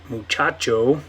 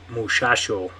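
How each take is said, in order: First: The consonants are ch sounds. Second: The consonants are sh sounds. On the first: "instead of the ch sound" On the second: "more of a sh sound"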